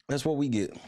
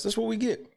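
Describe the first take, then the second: First: Said in the usual way. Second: High, sarcastic jab; mock your own team; bitter sneer. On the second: Real, not acted. Fan sneering at his team's loss, pitched high.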